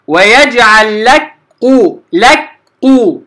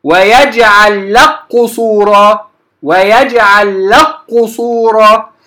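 First: لك with a light kaf fully said before قو, slow; wrong separate kaf. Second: لك merged straight into a doubled qaf of قصورا, slow; correct merging. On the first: Teacher demonstrating to students the wrong لك قو, slow. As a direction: split لك and قو into two letters, slowly. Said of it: "كأنني نطقت بكاف مرققة أولا ثم قاف، خطأ". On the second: Teacher showing students the merged لك قصورا, slow recitation. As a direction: recite لك قصورا with no kaf heard, slowly. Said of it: "أنتقل من اللام إلى قاف مشددة مباشرة". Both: Shown as a demonstration.

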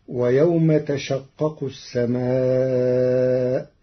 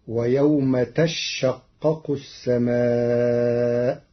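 First: تشقق with a single light shin, slow recitation; Hafs reading. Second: تشقق with a doubled, held shin, very slow; Warsh reading. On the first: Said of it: "قرأ ورش كلمة تشقق". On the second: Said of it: "بتشديد الشين". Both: Shown as a demonstration.

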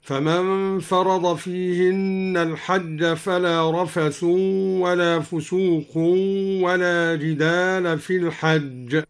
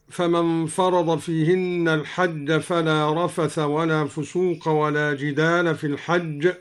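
First: "رفث" and "فسوق" end in nasalised -un; nominative with tanween. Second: Said in the usual way. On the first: Shown as a demonstration. Teacher recites al-Duri's way, -un on "رفث" and "فسوق". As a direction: give "رفث" and "فسوق" a drawn-out un ending. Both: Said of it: "قرأ الدوري بالرفع والتنوين".

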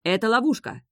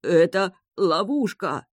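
First: Higher, hasty warning from the prince; hurried claim. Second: Slow, hoarse warning with the last of his strength; weak rasp. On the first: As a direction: blurt it out in haste. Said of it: "поторопился заявить принц". (торопливо, выше) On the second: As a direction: gasp it out slowly, dying. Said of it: "прохрипел Себастьян". (хрипло и медленно) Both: A narrator's reading.

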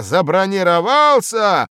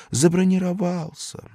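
First: High, loud bellowed word; loud raging repetition; furious roar. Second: Said in the usual way. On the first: Acted. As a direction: roar it in outrage. Boss repeats in rage.

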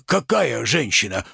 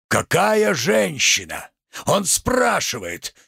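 First: Said in the usual way. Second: Indignant echo. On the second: Acted. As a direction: throw the question back theatrically, drawn out. Tragedian echoes merchant's question indignantly.

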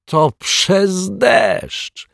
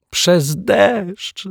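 First: Excited. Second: Giggling. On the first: Detective shouts his discovery. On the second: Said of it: "zachichotał detektyw Pozytywka". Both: Acted.

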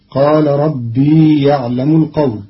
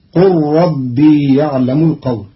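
First: قال recited with a long aa as qaal; Hafs reading qaal. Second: قل as qur-rabbi, l merged into the r; short qu, no alif, l assimilated into ربي; Qalun reading qul. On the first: Teacher recites the Hafs reading before Qalun's, pron. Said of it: "قرأ قالون كلمة قال". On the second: Teacher shows Qalun's reading of qul, pron. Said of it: "بضم القاف وحذف الألف وإسكان اللام مع إدغامها في راء ربي". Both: Shown as a demonstration.

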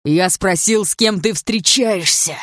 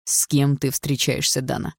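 First: Громко и зло, растягивая слова; давить голосом, яростно требуя ответа; злое шипение. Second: Медленно, негромко, с нажимом; цедить вопрос медленно, с угрозой; сдержанная угроза. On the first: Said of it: "прошипел он". (злой, громкий нажим) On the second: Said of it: "спросил он, сжав её плечо". (медленно и угрожающе) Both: A narrator's reading.

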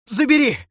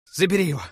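First: Far higher and louder, a near-shriek; the last desperate plea torn out; shrill scream. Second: Loud and much higher, falling at the end; desperate shout. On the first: Necromancer screams at the death god to take it, shrill. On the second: Necromancer begs the death god to take the dagger, shouting. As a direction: throw the dagger away with a cry. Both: Acted.

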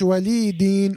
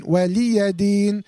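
First: ولي دين said "walee deen", no a after the y; wrong silent ya. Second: ولي دين said slowly "waliya deen", a clear a after the y; correct open ya. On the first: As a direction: show the mistake in ولي دين, running "lee" straight into "deen". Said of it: "عشان ما تقولش". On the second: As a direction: recite ولي دين with "ya" sounded before a long "deen". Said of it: "مفتوحة". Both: Shown as a demonstration.

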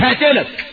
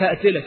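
First: Loud, high menacing "هقتلك"; loud mock threat "هقتلك"; acted threat. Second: Said in the usual way. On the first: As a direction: snarl it as the killer. Voicing the violent threat.

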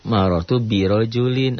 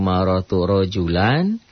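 First: "birojulin" with added bi and an -in ending; careful "marortu birojulin", ending in -in; contrasting case ending. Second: "rojulan" ending clearly in -an; slow, careful "marortu rojulan"; contrasting case ending. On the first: Teacher contrasting two Arabic phrases, stressing bi and -in. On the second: Teacher contrasting two Arabic phrases, stressing the -an ending. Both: Shown as a demonstration. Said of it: "padahal lain".

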